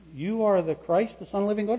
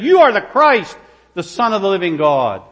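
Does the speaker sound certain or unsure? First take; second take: unsure; certain. First: It is said hesitantly, like an unsure question. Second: It is said as a firm, certain statement. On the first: The speaker is guessing and seeks approval. The speaker calls it wrong. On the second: The speaker is convinced of the answer. The speaker calls it right.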